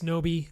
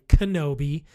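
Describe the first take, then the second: First: The name is said in two syllables, like Noby. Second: The name is said in three syllables, like Kenobi. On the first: The speaker calls it wrong. "I'm saying it wrong already" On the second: The speaker calls it right. "Kenobi, as I say in the beginning. This is Obi-Wan Kenobi"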